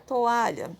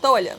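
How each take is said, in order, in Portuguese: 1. As duas vogais são ditas devagar, como sílabas separadas. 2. As duas vogais se juntam rápido numa sílaba só. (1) "Eu falo to e o a bem separadinho. Tanto é que eu falo com mais calma" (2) "Se eu falasse eles tudo juntos, ficaria tolha"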